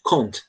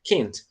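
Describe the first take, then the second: First: It is said in a European accent, vowel like O. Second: It is said in an American English accent. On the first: "inglês europeu, eles falam can't, tá bom? Como se fosse um O mesmo" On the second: "Se você gosta de inglês americano, a pronúncia é can't mesmo"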